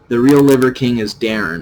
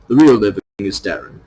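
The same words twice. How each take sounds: First: It is said in the speaker's usual accent. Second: It is said in a British accent.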